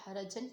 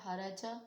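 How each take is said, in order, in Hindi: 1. यह शब्द 'an' और 'n' ध्वनि से खत्म होता है। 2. यह शब्द लंबे किए गए 'a' स्वर से खत्म होता है। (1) "अगर ये वसल में पढ़े हैं तो हराजन पढ़ा जाएगा" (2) "अगर इस पर वक्फ करें तो हराजा"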